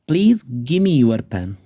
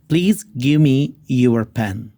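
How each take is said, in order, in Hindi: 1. 'Give me' घटकर 'gimme' हो जाता है। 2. 'Give me' पूरा बोला जाता है।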